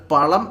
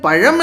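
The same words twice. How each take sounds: First: "പളം" with a retroflex ള (l) replacing the zh; wrong l sound. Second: "പഴം" with a curled retroflex zh (ഴ); correct zh sound. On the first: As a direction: show the mistake: "പളം" with an l. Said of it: "എന്ന് പറയരുത്". ("പളം" എന്ന് ഴ-യ്ക്ക് പകരം ള ഇട്ട് തെറ്റായി പറയുക) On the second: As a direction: model "പഴം" carefully, zh rather than l. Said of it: "പഴം എന്ന് പറയുക". ("പഴം" എന്നതിലെ ഴ ശരിയായി ഉച്ചരിക്കുക) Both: Shown as a demonstration.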